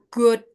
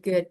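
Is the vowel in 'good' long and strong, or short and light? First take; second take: long; short. First: The vowel is a long, heavy 'uh' sound. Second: The vowel is a short, light sound. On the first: The speaker calls it wrong. "aku nggak good gitu ya, nggak uh banget" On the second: The speaker calls it right. "Tapi gini aja"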